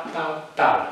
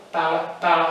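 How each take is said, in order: Both takes have the same delivery.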